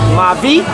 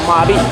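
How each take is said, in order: First: The middle consonant is a V sound. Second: The middle consonant is a B sound. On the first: This is how it is said in Puerto Rico. "I think the Puerto Ricans say it Mavi" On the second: This is how it is said locally. "we say it uh, Mabi"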